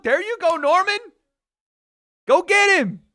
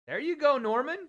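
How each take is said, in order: First: Much higher and much louder, real cheering; excited shout. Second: Excited cheer. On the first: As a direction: scream him on from the couch. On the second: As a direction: urge him on with a high, bright call. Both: Real, not acted. Cheering on his fighter live.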